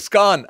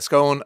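First: The vowel sounds like the one in gone. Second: The vowel sounds like the one in moan. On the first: The scone has been eaten. "as in gone" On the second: The scone is still on the plate. "when it's on a plate, it's a scone"

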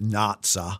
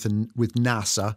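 First: It is said in an imitated German accent. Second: It is said in a plain, ordinary accent.

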